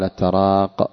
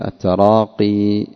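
First: The word ends without a final long i vowel. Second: The word ends with a final long i vowel. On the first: The speaker calls it wrong. "ولا يقال التراق" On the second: The speaker calls it right. "بل التراقي لأنها منصوبة"

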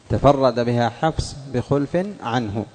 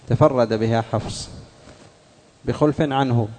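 The two takes are said the same way.

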